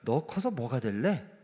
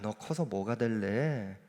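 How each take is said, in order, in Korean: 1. 질문 끝을 위로 올려요. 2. 질문 끝을 안 올려요. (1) "여기서 조금 말끝을 올리면 이상해집니다" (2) "좋은 의미로 하는 얘기도 있는데"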